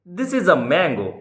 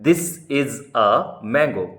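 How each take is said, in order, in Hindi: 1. यह तेज़ गति से बोला गया है। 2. यह धीमी, सामान्य गति से बोला गया है।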